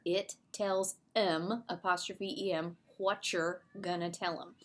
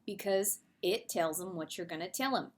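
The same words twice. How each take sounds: First: Slow Southern drawl on It tells 'em. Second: Said in the usual way. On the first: Shown as a demonstration. Teacher showing the class the Southern saying, in a Southern drawl. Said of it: "write down all of the dialogue, uh, the dialect there". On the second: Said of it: "the dialect there".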